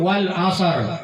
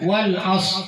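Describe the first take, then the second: First: An extra vowel is inserted before the final consonant. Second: The word ends without any added vowel. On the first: The speaker calls it wrong. "Biasanya itu kamu wal asar" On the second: The speaker calls it right. "Harus dibaca wal as"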